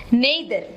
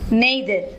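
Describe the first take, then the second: First: The word is said in a British accent. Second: The word is said in a British accent.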